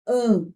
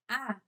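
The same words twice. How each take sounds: First: "an" as one nasal vowel; nasalized vowel. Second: Plain open "a" with no nasalization; oral vowel. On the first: Teacher showing what the tilde does, nasalized "an". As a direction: send the vowel of "an" through the nose. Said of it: "Isso é nasalização". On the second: Teacher contrasting vowels for nasalization, oral "a". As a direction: say "a" purely through the mouth. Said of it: "em vez de eu falar". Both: Shown as a demonstration.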